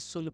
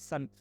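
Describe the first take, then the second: First: The vowel is a rounded 'oo' sound. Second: The vowel is an open 'uh' sound. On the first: The speaker calls it wrong. "बहुत लोग इसे सुन पढ़ते हैं, right सुन नहीं पढ़ना है आपको" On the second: The speaker calls it right. "राइट सन type करेंगे सन"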